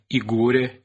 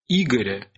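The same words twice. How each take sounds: First: The stress falls where Old Russian placed it. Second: The stress falls where modern Russian places it. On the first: This is how it was said in old times. "а не Игоря" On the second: This is how it is said today. "Сейчас мы говорим"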